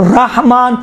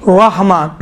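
First: رحمان with a clear open 'ra'; open-vowel take of رحمان, no waw colour; pronunciation variant demo. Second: رحمان with a rounded, heavy r; dark rounded 'raw' opening on رحمان; waw-coloured pronunciation. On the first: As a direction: say رحمان carefully, r unrounded. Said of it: "دونوں صحیح ہے". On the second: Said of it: "واو جیسا". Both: Shown as a demonstration.

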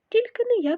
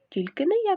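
First: High, loud refusal cry; shouting. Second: High, loud echoing refusal; shouting. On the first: Mouse refusing the rooster's request, high loud shout. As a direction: yell it out to dodge the work. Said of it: "кричить Круть". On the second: Second mouse echoing refusal, high loud shout. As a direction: shout the same refusal back, a touch less. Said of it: "кричить Верть". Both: Acted.

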